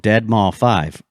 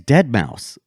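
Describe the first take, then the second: First: The name ends with the sound 'mall five'. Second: The name ends with the sound 'mouse'. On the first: The speaker calls it wrong. "I used to call him [name]" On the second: The speaker calls it right. "his name's [name]"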